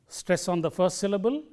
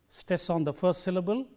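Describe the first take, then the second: No difference in how they are said.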